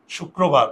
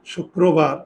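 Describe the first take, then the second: First: Said in the usual way. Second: "শুক্রবার" as shuk-krobar, with the k held double; correct doubled k. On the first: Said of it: "আমরা তো এভাবেই অশুদ্ধ উচ্চারণ করি". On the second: Shown as a demonstration. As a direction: hold the k in "শুক্রবার" before a round kro. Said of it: "তাহলে দেখো দুইবার যদি দিই".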